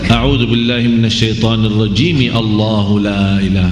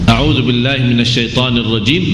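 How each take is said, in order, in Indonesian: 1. Kedua frasa menyambung tanpa jeda. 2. Ada jeda yang jelas sebelum frasa berikutnya. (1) "berarti di sini kita berlindung kepada Allah sendiri, dari dari Allah sendiri"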